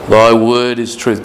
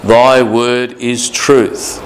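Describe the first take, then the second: First: Said in the usual way. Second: Very slow, each word weighted; slow scripture quote. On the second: Shown as a demonstration. Preacher to congregation, quoting Jesus, very slow and weighty. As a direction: lay out Thy word is truth word by word. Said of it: "Jesus said in John seventeen seventeen".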